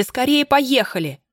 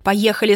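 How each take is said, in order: First: Higher, slower, stretched urgent plea on скорее; frantic urgency. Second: Urgent, slightly louder first plea. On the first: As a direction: beg him frantically to hurry. (отчаянная мольба) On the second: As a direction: push him to drive off. (настойчивая просьба) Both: Acted. Escaping, begging driver to go.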